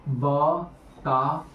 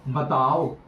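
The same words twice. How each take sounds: First: बताओ broken into slow, separate syllables. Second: Said in the usual way. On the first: Real, not acted. Teacher pressing students for an answer, बताओ said syllable by syllable. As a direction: spell out बताओ slowly, pausing between syllables.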